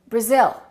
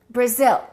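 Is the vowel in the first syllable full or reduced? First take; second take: reduced; reduced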